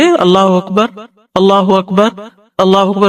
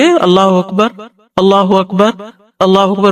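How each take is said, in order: First: Short pauses separate each phrase. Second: Short pauses separate each phrase.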